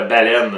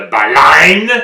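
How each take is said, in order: First: "baleine" with an è sound, ba-LÈNE; plain standard "baleine". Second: "baleine" with an open a sound, ba-LANE, said loud and slow; "baleine" with the second vowel opened toward a; slow, loud Quebec-style "baleine". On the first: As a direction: standard French "baleine" with an open e. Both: Shown as a demonstration. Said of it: "il y en existe deux".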